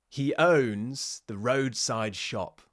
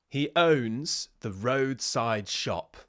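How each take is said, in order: Both takes have the same delivery.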